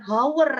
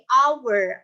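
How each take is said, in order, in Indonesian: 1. Kata ini diawali dengan bunyi h yang jelas. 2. Kata ini langsung diawali dengan bunyi vokal. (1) "pronunciation huruf awalnya itu dia bukan hour ya" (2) "tapi hour, hour. Dia huruf E, A gitu"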